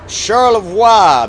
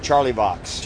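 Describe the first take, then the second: First: The name is pronounced with a French sound. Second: The name is pronounced like English 'Charlie Box'. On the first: "I pronounced that very French" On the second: "You'd go Charlie Box"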